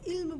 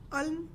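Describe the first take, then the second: First: The word begins with a short i vowel. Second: The word begins with a short a vowel. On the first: It means knowledge. The speaker calls it right. "आइन के नीचे ज़ेर है तो हम इसे इल्म पढ़ते हैं" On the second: It no longer means knowledge. The speaker calls it wrong. "अब मैं इसे कहूँगी अल्म या अलम तो ये इल्म के मायने में नहीं आएगा"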